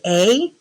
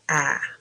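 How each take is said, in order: First: The vowel is said long, like its name. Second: The vowel is said short and clipped. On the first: "Is it a long sound like A?" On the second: "Or is it a short vowel like A?"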